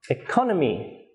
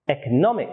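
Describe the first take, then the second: First: "economy" with the beat on "con"; light "e", then strong "con" in "economy"; stress on second syllable. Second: "economic" with the beat on "nom"; stress on third syllable. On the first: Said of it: "Its stress is on the second syllable". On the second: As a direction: hold back until a strong "nom" in "economic". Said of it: "it has stress on the third syllable". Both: Shown as a demonstration.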